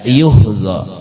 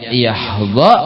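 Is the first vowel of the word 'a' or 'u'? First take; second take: u; a. First: The first vowel is a rounded 'u' sound. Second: The first vowel is an open 'a' sound. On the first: The verb is in the passive voice. "kalau yuhda lil majhul" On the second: The verb is in the active voice. "Kalau yahda lil ma'ruf"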